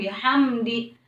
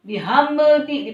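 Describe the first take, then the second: First: The m sound passes directly into the d. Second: The m sound is bounced before the d. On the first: The speaker calls it right. "harus langsung" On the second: The speaker calls it wrong.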